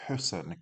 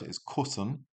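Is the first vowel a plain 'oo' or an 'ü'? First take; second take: ü; oo. First: The first vowel is a rounded front 'ü'. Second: The first vowel is a plain back 'oo'. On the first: The speaker calls it right. "but we need kussen" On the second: The speaker calls it wrong. "Without an umlaut, which isn't a word"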